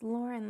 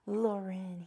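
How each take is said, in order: First: It sounds like the common English first name. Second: It is said with a French-style pronunciation. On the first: The speaker calls it right. "like how you say the name Lauren" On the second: The speaker calls it wrong. "not Lauren. He's not French"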